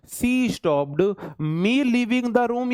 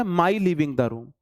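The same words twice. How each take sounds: First: ME drawn out and set apart, slow deliberate delivery; stress on ME. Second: MY held and stressed, slow questioning rise at the end. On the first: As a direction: lean slowly on the word "me" as the first option. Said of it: "आप बोलोगे". ("me" पर ज़ोर, धीरे-धीरे) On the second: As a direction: offer "my" as the other option, slowly. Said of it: "या". ("my" पर ज़ोर, सवालिया लहजे में धीरे) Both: Shown as a demonstration.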